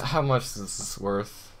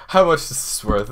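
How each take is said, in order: First: Hushed, stunned disbelief. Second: Quick, eager, under the breath; fast excited mumble; rushed question. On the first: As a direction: ask it almost breathless with awe. Asks again, stunned. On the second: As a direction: blurt it out fast and low. Asks the value in a rush. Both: Real, not acted.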